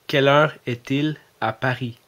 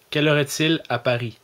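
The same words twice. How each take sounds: First: Louder, careful European French accent for Siri; put-on European French accent. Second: Louder question in his own Québécois accent to the phone; Quebec French accent. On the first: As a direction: switch to a France French accent so the phone understands. (accent français de France, articulé) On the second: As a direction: ask Siri plainly in Quebec French. (accent québécois, plus fort) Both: Shown as a demonstration. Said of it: "j'ai corrigé mon ton de voix, mon accent".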